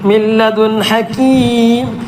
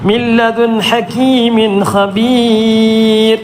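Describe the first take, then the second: First: It stops on hakeem with a lengthened vowel. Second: It runs on through hakeemin without stopping. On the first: "നിർത്തുമ്പോൾ അവസാനത്തെ അക്ഷരത്തിന് സുക്കൂന് കൊടുക്കണം" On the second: "അവിടെ നിർത്തുന്നില്ല എങ്കിൽ"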